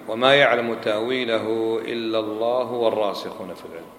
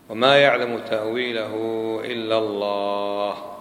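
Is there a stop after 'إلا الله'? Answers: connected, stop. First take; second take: connected; stop. First: 'إلا الله' runs straight into the next words. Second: The voice stops fully after 'إلا الله'. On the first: Those firm in knowledge also know its interpretation. "لو أوصلنا إيش يكون المعنى؟" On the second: Only God knows its interpretation. "وقف هنا نقطة"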